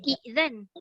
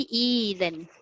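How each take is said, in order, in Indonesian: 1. Vokal pertama dipotong oleh hentian glotis. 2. Vokal pertama dipanjangkan menjadi i panjang. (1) "Asalnya izan" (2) "Tapi ditukar jadi izan"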